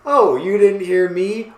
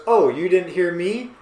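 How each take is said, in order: First: Louder, higher acted challenge; mock escalating yell. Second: Lightly acted indignant question; mock raised voice. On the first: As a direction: repeat it a notch more insistently. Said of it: "All caps, bold". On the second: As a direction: play a mild first round of shouting. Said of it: "All caps".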